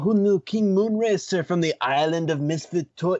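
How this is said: It is said in a put-on gangster voice. "this is more like stoner drug dealer voice"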